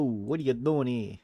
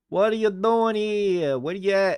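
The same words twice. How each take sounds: First: Said in the usual way. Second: Higher and louder, calling into the void; playful raised call. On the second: Acted. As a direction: call out as if nobody answers. Streamer calling out to an empty chat.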